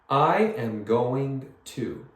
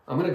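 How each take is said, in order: First: Every word is said fully and separately. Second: The words run together quickly into "gonna".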